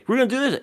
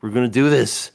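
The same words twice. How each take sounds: First: High-pitched pestering imitation; mock nagging check. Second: Loud, emphatic mock exasperation; exasperated confirmation. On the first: Imitating someone asking again halfway through everything, mock nagging check. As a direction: pipe it up high as an anxious check. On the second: Acting out the answer to a fifth asking, exasperated confirmation. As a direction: answer firmly, fed up with being asked.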